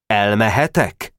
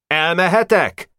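First: Said in the usual way. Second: High cry into the silence, falling at the end; calling out. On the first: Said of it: "Még egyszer kérdezte". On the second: Acted. Boy calling out to the silent gang, high cry. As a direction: call it out high into the hush. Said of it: "belekiáltott nemecsek".

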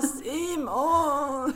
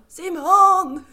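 First: Louder, higher pained call of the name; calling out again. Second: Loud high call of a name. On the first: Calling her husband again in pain, a louder pained call. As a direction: call out, hurting. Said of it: "så han bara". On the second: Calling her husband downstairs in pain, a loud high call. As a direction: shout for him from the toilet. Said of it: "Och bara". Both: Retold or imitated.

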